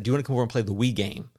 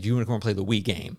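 First: Fast, lightly voiced grandpa invitation; imitating Pawpaw. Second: Quick, lightly voiced grandpa invitation; imitating Pawpaw again. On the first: Pawpaw inviting the family over to play, lightly imitated. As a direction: rattle off Pawpaw's invite with a hint of his phrasing. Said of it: "that's how he said it". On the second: Pawpaw asking the kids to play the Wii game, lightly imitated. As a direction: toss off Pawpaw's line, barely put on. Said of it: "He just meant the Wii".

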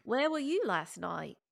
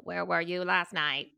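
First: Slow British accent that lands Australian; shaky-aim British, veering Australian; attempted British accent. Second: Lightly robotic, drawn-out questioning; slow, measured machine voice asking a question; a hint of robot interrogator. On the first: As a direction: try a British accent, drawn out. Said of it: "Can it be British?". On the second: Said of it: "in a voice like". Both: Shown as a demonstration.

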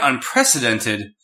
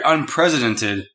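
First: Said in the usual way. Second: "unprecedented" said as "un-president-ed"; misspoken word. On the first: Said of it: "He meant unprecedented". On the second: Retold or imitated. Quoting his tweeted typo, "unprecedented" pronounced un-PRESIDENT-ed. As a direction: put "president" inside "unprecedented". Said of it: "He meant unprecedented, but he said unprecedented".

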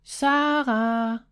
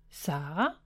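First: A mild raised call of her name; calling louder. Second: A hushed, tentative call into the dark room; soft call. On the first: Brother searching the empty bedroom, mildly louder call. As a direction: call out a bit louder, worried. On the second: Brother peeks into sister's empty room, calling softly. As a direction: call her name softly, unsure. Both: A narrator's reading. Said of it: "Han kaldte højere nu".

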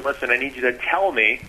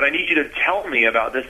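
First: Overemphasize "tell", hit it hard; stress on tell. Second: Said in the usual way. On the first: Shown as a demonstration. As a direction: lean heavily on "tell" to make the point. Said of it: "I'm just overemphasizing that word". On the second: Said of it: "I'm not gonna say it that way".

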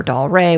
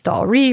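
First: "Doll Ray" ending in an ay sound; Doll Ray pronunciation. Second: "Doll Ree" ending in a long ee; Doll Ree pronunciation. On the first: Podcaster unsure of a woman's name, trying "Doll Ray" with an ay ending. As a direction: say "Doll Ray", second part rhyming with day. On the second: Podcaster unsure of a woman's name, trying "Doll Ree" with an ee ending. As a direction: say "Doll Ree", second part rhyming with see. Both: Shown as a demonstration. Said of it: "not a hundred percent sure how to s-, pronounce".

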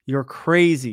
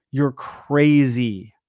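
First: Said in the usual way. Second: Dog voice, drawn out. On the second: Retold or imitated. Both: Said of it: "And he'd go".

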